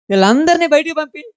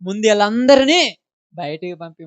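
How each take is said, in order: First: Higher and louder, punching వీళ్ళందరినీ; preacher repeats Jesus's command to the congregation, proclaimed loudly; emphatic repeat. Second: Said in the usual way. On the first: Shown as a demonstration. Ring out వీళ్ళందరినీ with a high rising call. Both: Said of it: "ఏమన్నాడు?".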